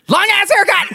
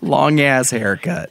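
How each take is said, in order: First: It is said loudly, with excited energy. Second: It is said in a flat, plain way.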